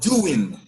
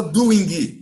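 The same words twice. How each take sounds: First: "doing" closing on "n", with the G silent; ending on N. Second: "doing" with a hard G and added vowel, "doin-gui"; wrong pronunciation of -ing. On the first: Teacher modelling the gerund for students, silent G. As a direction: say "doing" lower, as "doo-in" without the G. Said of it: "Acabou com N". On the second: Teacher showing students what not to say, G pronounced. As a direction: say "doing" Brazilian-style, sounding out the final G. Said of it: "Então não pode falar doing". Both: Shown as a demonstration.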